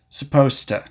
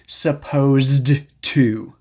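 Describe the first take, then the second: First: Sounds are dropped and joined by one T. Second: Each sound is pronounced clearly and fully. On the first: The speaker calls it right. "It usually sounds more like supposed to" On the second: The speaker calls it wrong. "you'll rarely hear anyone say supposed to"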